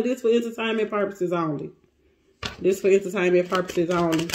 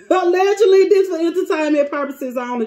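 First: Low, quick repeat; lowered disclaimer. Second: Higher, quick disclaimer; emphatic disclaimer. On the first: Reader repeating the disclaimer to viewers, low aside. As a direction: drop the pitch and rattle it off. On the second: Reader covering herself to viewers, emphatic disclaimer. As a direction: start high and loud, then rattle it off. Disclaimer hastily added to the reading. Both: Real, not acted.

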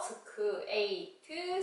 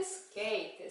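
First: 스크에이트 split into separate syllables with an extra 으; 스크에이트 said slowly as separate syllables. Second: 스케이트 said as one smooth word; 스케이트 said whole, no extra vowel; blended word. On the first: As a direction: sound out 스크에이트 slowly, 스-크-에이트. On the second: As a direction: run 스케이트 together as one syllable cluster. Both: Shown as a demonstration.

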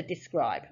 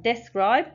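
First: "describe" said the normal way, di-SCRIBE, first syllable light; correct pronunciation. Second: "describe" sounded out as dess-cribe, short e in the first syllable; decoded spelling-based pronunciation. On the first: Teacher corrects the decoding to the real word "describe". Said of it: "to describe". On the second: Teacher models a child's first decoding of "describe". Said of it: "they will be able to go from describe". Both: Shown as a demonstration.

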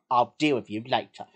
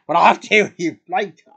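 First: Low-pitched warning father voice; stern dad. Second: Loud retort. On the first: Dad warns his son mid-family outing, low and stern. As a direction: give a low, controlled telling-off. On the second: Answering dad's warning back, loud and defiant. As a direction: throw the warning straight back, loudly. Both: Acted.

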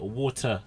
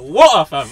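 First: Low, softer "Water" with the T fully sounded; effortful T. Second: Loud "Water, fam" with no T in Water; dropped T. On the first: Showing water is too much effort, "Water" with a careful T. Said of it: "it's too much of an effort". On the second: Showing the effortless London way, "Water, fam" without the T. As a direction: hit Water hard with a glottal catch for the T. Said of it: "leave the tea, blood". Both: Shown as a demonstration.

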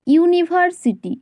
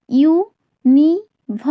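First: Said in the usual way. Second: "ইউনিভার্সিটি" slowly broken into four parts, ইউ, নি, ভার, সিটি; four separate beats on "ইউনিভার্সিটি"; split into syllables. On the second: Shown as a demonstration. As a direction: say "ইউনিভার্সিটি" part by part with clear gaps. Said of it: "চারবারে উচ্চারিত হচ্ছে".

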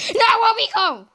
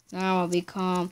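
First: High calling out. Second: Quiet coaxing. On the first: Calling to pet, repeated. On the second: Soothing his Minecraft pet. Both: Acted.

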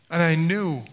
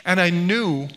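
The two takes are said the same way.

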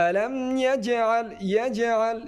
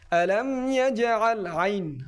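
First: ইয়াজআল said the wrong way, without a proper ain; a mispronounced ইয়াজআল to avoid; wrong pronunciation. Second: ইয়াজআল with a true throaty ain; correct ain. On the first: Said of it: "ইয়াজআল এরকমের হবে না". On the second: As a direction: slowly say ইয়াজআল with a clear ain. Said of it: "আইনটা সহি শুদ্ধভাবে উচ্চারণ করতে হবে". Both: Shown as a demonstration.

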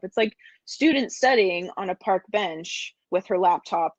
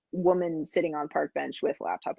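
First: Said in the usual way. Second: Caveman talk in broken words; Julian Solomita caveman voice. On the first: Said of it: "that was my caveman voice". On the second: Pretend. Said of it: "my Julian Solomita caveman voice".

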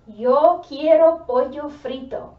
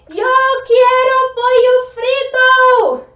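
First: Louder call. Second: Sung, "Yo quiero pollo frito" belted in a much higher, far louder singsong; a playful, shouted sung craving. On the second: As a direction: belt it out like a hungry chant. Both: Shown as a demonstration.

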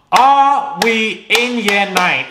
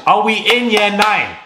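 First: "Are we in year nine" drawn out slowly and higher; slow, indignant repeat. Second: Higher-pitched indignant question at usual pace. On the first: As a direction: stretch every word of "Are we in year nine" in disbelief. Repeats mocking question slowly. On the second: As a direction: ask it in raised, exasperated disbelief. First take of mocking question. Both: Real, not acted.

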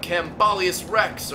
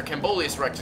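First: "Cambolius" said as kam-BAH-lee-us, slowly, stressing "Rex"; first try at the name. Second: "Cambolius" said as kam-BOH-lee-us, with a long "oh"; corrected pronunciation. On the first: Streamer reading an odd name aloud, first try with "ah" in "Cambolius". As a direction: say "Cambolius" with a short "ah" in the middle, drawn out. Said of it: "or Cambolius Rex". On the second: Streamer correcting himself on the name, "Cambolius" with "oh". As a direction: fix "Cambolius" to an "oh" sound in the middle. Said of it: "excuse me". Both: Shown as a demonstration.

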